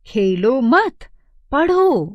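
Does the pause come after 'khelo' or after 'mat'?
after mat. There is a pause right after the second word. The listener is told to study, not play. "दूसरे वाक्य में पढ़ने को"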